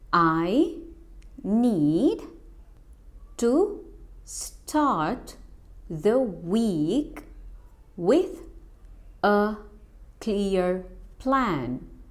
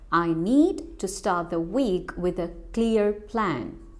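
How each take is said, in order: First: The sentence is spoken slowly. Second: The sentence is spoken at normal speed. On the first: "Now say with me slowly" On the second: "Now let's speak normally"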